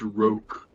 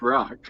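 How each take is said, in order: First: The vowel is a long 'oh' sound. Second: The vowel is a short 'ah' sound. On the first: The speaker calls it wrong. "no, it's pronounced roke" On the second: The speaker calls it right. "it's clearly pronounced rock"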